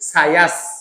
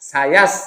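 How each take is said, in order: Both takes have the same delivery.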